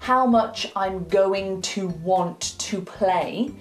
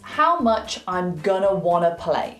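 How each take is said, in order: First: Going to and want to are pronounced in full. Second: Going to and want to are reduced to gonna, wanna. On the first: "instead of Joey saying" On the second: "he says"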